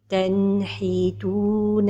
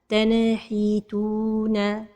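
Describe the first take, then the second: First: The n sound is short, clear and flowing. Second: The n sound ends with a bouncing echo. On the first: The speaker calls it right. "la prononciation correcte" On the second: The speaker calls it wrong. "L'erreur avec al-qalqala de an-noun as-sakina"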